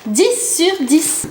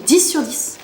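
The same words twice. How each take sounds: First: "Dix sur dix" drawn out slowly, word by word, higher; emphatic repeat. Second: Said in the usual way. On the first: Real, not acted. Vlogger confirming her top score, "Dix sur dix" slow and emphatic. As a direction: stretch each word of "Dix sur dix" as a verdict.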